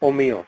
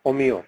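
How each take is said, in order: Both takes have the same delivery.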